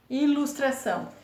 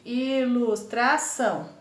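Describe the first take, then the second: First: Said in the usual way. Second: I - LUS - TRA - ÇÃO, slow, drawn-out beats; teacher sounding out I-LUS-TRA-ÇÃO; split into syllables. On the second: Shown as a demonstration. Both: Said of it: "Olha como divide".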